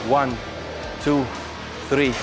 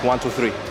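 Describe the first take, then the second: First: The count is slow, about a second apart. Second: The count is rushed, the numbers close together. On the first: Each number marks a real second. The speaker calls it right. "Slow, real seconds" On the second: The seconds are not really counted. The speaker calls it wrong.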